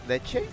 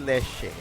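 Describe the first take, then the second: First: The middle consonant is a 'ch' sound. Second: The middle consonant is an 'sh' sound. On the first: This is the standard form. "The word for milk in Spanish, it's leche" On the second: This is how people say it locally. "but we say leche"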